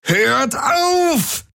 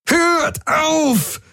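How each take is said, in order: First: High desperate yell, weight on auf; bellowing. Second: High, anguished yell with a cry in it; bellowing. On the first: Jun yells again for them to stop, high desperate cry. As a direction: cry out auf as a final plea. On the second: Jun yells at everyone to stop, high anguished bellow. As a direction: scream at them to stop. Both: Acted. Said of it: "brüllte Jun".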